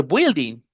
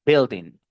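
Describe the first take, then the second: First: Building mispronounced "bwil-ding"; building starting with "bwi"; wrong pronunciation. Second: Building said "BIL-ding"; building starting with plain "bil"; correct pronunciation. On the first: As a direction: sound the U in building as W. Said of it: "No se dice building". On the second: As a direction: silent U in building, short I. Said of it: "you say building". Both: Shown as a demonstration.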